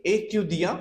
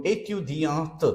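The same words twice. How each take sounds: First: "A Q D A" as "ay-tyu-dyahn", ending on the vowel; silent final T. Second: "A Q D A T" as "ay-tyu-dyahnt", ending on a released T; final T sounded. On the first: Teacher gives male student form, "A Q D A" without T. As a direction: say "A Q D A" with no T at the end. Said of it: "If we don't write E". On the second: Teacher gives female student form, "A Q D A T" with T. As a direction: say "A Q D A T" with the T heard last. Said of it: "if we add E". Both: Shown as a demonstration.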